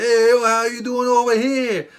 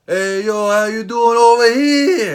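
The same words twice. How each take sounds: First: Loud, high shout echoing back; his hyped-up reply. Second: Loud, high, slow hyped shout; hyped-up greeting. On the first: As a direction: toss the same hype right back. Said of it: "And he's like". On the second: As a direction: greet him like a pumped-up wrestling fan. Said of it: "what did I say?". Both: Retold or imitated.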